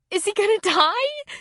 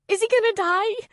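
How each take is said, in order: First: Desperate. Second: High frightened plea; crying out. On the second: Girl asking Kelly about her dog, frightened. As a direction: beg to know, scared. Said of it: "Courtney cried". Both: A narrator's reading.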